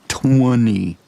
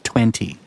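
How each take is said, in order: First: It is said with a rural Ohio twang. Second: It is said plainly, without a twang. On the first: The speaker calls it wrong. "not twenty" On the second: The speaker calls it right. "it's twenty"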